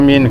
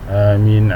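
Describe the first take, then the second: First: The word is said loudly and strongly. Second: The word is said softly and quietly. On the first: It follows a prayer recited aloud. "kuat-kuat lah, sama kuat" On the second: It follows a prayer recited quietly. "Kalau perlahan macam tu, perlahan lah aminnya"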